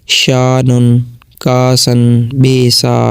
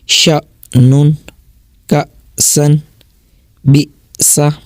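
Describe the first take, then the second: First: The vowels are drawn out smoothly, with no catch. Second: The vowels are cut short by a glottal catch. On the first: The speaker calls it wrong. "इस तरह करके ना, तो ये गलत है" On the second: The speaker calls it right. "इसको झटका दे के ही पढ़ेंगे"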